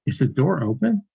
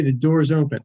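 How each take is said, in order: First: "Is the door open?" rising at the end; question tune. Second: "the door is open" as a plain statement, falling at the end; statement tune. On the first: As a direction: lift the pitch on "open", asking a question. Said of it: "if I ask the question". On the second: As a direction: let the pitch fall on "open", stating a fact. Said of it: "that's a statement". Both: Shown as a demonstration.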